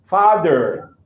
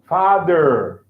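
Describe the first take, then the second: First: It is said in an American accent. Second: The same.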